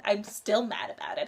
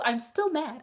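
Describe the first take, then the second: First: Said in the usual way. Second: Still mad. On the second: Real, not acted.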